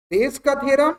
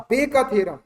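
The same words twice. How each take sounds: First: बेज said with a clear z ending, "bez"; Bayes pronounced right. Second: बे said without the z, just "bay"; the wrong apostrophe reading; wrong "Bay's" reading. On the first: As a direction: say बेज with the final z sound. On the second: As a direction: drop the z, say बे. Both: Shown as a demonstration. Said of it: "दोनों चीज में difference है".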